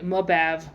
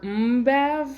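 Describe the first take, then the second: First: A vowel sound separates the M from the B. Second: The M runs straight into the B. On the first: This is how the group usually says it. The speaker calls it wrong. "we say Mabav" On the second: This is how it is supposed to be said. The speaker calls it right. "in reality we should be saying Mbav"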